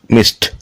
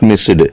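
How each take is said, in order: First: The ending is a t sound. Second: The ending is not a t sound. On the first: The speaker calls it right. "T sound" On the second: The speaker calls it wrong. "Not missed"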